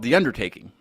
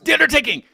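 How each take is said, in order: First: It is said at a normal, calm volume. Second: It is yelled loudly and with energy. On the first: "now I don't say it like that" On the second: "You have you have to yell it"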